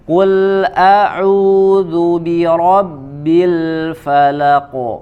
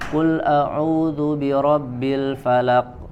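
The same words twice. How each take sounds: First: The final q ends with an echoing bounce. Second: The final q stops flat with no echo. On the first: The speaker calls it right. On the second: The speaker calls it wrong.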